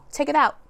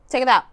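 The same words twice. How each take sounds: First: OUT pressed down firmly; firm order. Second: Louder, "out" cut short and falling; louder repeat. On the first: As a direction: say "out" with a hard falling push. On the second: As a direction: repeat "Take it out" louder, like an order. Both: Shown as a demonstration. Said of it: "When are you gonna take that shit out".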